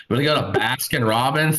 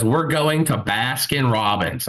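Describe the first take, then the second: First: Mildly incredulous echo; questioning repeat. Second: Slow, insistent statement with falling end; firm announcement. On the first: Friend questioning a half-mile detour, mildly incredulous. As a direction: query the plan at normal pace. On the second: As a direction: lay down the decision, word by word. Friend announces decision, comic retelling. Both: Retold or imitated.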